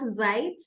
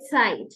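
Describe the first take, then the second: First: The word begins without a ts sound. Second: The word begins with a ts sound. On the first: The speaker calls it wrong. "not Zeit" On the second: The speaker calls it right. "so we say Zeit"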